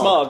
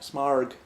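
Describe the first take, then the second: First: The vowel sounds like the 'o' in fog. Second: The vowel sounds like the 'ar' in car. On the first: The speaker calls it right. "actually said Smog" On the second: The speaker calls it wrong. "said it like completely wrong"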